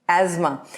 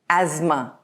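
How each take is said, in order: Both takes have the same delivery.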